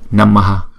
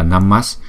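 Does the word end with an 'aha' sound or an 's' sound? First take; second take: aha sound; s sound. First: The word ends with an added echo vowel, aha. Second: The word ends in a short s sound. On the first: The word stands alone. "Nếu mà đứng một mình chữ này á, thì chúng ta đọc là Namaha" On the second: The word is joined to a following word starting with S. "nhưng mà chúng ta phải đọc là Namas"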